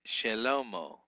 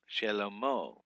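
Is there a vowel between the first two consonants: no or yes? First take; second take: yes; yes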